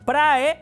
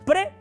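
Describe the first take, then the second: First: The vowel a is heard before the e. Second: Only the e vowel is heard, no a. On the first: The speaker calls it wrong. "en vez de decir prae" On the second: The speaker calls it right. "se pronuncia pre"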